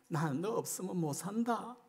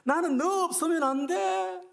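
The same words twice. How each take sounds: First: Softly, as God confessing need; gentle heartfelt declaration; quiet tender plea. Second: Much higher and louder, pleading with all his heart; a lover who cannot live without you; desperate cry. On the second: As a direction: cry out 나는 너 없으면 안 돼 with 너 soaring high. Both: Acted. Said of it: "하나님의 마음이".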